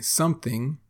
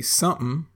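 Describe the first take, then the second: First: Said in the usual way. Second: Something clipped to sumn; casual Texan something. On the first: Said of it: "instead of saying something". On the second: Shown as a demonstration. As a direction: swallow the middle of something so it's sumn. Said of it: "We say something".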